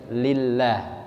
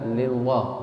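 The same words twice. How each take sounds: First: The l sound is thin and light. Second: The l sound is thick and heavy. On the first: The speaker calls it right. "tapi harus lillah gitu" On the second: The speaker calls it wrong. "kadang-kadang apa? Lillah"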